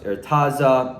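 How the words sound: The name has an Americanized pronunciation. The name has been changed by English speakers. The speaker calls it wrong.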